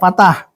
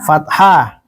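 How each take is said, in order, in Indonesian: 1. Kata itu diawali dengan bunyi p. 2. Kata itu diawali dengan bunyi f.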